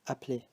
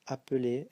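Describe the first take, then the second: First: The e after the p is silent. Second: The e after the p is heard as schwa. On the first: "if we speak fast, sometimes we just say appeler, so you don't hear this" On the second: "the E before is pronounced as a schwa"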